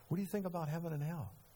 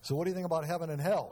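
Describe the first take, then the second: First: It is asked softly and gently. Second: It is asked in a harsh, interrogating way.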